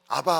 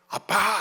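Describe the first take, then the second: First: The middle consonant is a plain b. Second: The middle consonant is a tense pp. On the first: "미국식 발음입니다" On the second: "히브리인들은 아빠 발음이 돼요"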